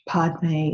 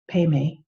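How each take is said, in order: First: The word has a clear d sound before the m. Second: The word has no d sound before the m.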